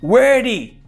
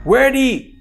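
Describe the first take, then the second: Both takes have the same delivery.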